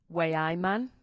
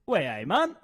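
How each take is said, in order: First: Understated Geordie model phrase; Geordie accent. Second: Tentative copy of Geordie; lightly imitated Newcastle accent; attempted Geordie accent. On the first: Shown as a demonstration. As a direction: model the Newcastle accent lightly for a learner. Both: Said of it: "give the Geordie accent a go".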